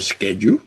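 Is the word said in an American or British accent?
American. The word is said with an American accent. "instead of"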